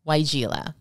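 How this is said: The name is said in an American English way. This is the usual name used in the U.S. "The name of this shrub is pronounced"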